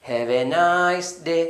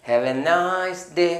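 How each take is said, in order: The two takes are said the same way.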